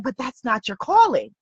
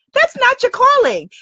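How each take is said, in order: First: Said in the usual way. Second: The line "That's not your calling" thrown up high and loud for emphasis; emphatic repeat. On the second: Shown as a demonstration. Coach to her audience, insisting on their calling, high emphatic. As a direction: drive it home, higher and louder on the repeat.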